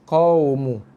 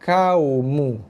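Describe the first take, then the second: First: It starts with a deep, throaty q sound. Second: It starts with a plain, light k sound. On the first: The speaker calls it right. "Kekalkan makhraj yang sama sebab dia huruf yang sama" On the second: The speaker calls it wrong. "ramai yang membaca dengan kau"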